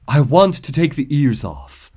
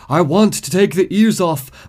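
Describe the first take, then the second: First: Poem reading. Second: Higher, louder, unhinged poet; rising hysteria. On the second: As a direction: let the madness break through. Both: Acted. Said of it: "The Wild Bunny by Sander Cohen".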